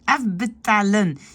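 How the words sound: It is said with tense, spread lips, French-style. "un vrai francophone, il va dire afbetalen. Il tend vraiment la bouche"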